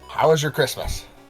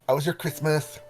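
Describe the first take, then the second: First: The question is said without a lisp. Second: The question is said with a lisp. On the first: "Is that better?" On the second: "Why have you to say it with a lisp?"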